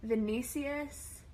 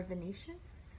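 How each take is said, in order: First: Vinicius with an S sound in the last syllable; first guess at pronunciation. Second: Venetius with a SH sound in the last syllable; alternative pronunciation. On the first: Host reading viewers' names, first guess at pronunciation. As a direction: say Vinicius slowly, ending in "see-us". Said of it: "so many ways to pr". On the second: Host unsure of viewer's name, alternative pronunciation. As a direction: say Venetius ending in "shus". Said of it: "I guess". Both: Shown as a demonstration.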